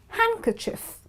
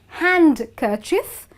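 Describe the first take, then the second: First: The D sound is left out. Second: The D sound is pronounced. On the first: The speaker calls it right. "it's handkerchief" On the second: The speaker calls it wrong. "not handkerchief because D is silent"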